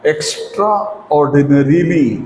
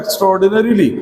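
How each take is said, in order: First: "extraordinarily" drawn out part by part; slow, broken up. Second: Said in the usual way. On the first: Shown as a demonstration. Teacher introducing a long word to learners, slowly in parts.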